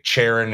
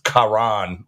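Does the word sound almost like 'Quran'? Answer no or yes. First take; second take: no; yes. First: It does not sound like 'Quran'. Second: It sounds almost like 'Quran'. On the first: The speaker calls it wrong. "I was pronouncing it Charon" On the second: The speaker calls it right. "it's pronounced Karan, like like almost like Quran"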